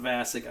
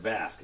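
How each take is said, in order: First: The name is said as two syllables. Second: The name is said as one syllable. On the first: The speaker calls it wrong. "not Vasic. I know I mispronounced it yesterday" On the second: The speaker calls it right. "I said Vasc"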